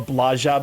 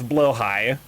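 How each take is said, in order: First: Read letter by letter, following the spelling. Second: Said like blow-high, departing from the spelling. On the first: The speaker calls it wrong. "spelled like bl- Blaja" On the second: The speaker calls it right. "but pronounced as yeah, it's blowhigh"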